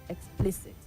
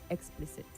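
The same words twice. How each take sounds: First: The stress is on the second syllable. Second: The stress is on the first syllable. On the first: The speaker calls it right. "The stress is on the second syllable" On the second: The speaker calls it wrong. "not explicit"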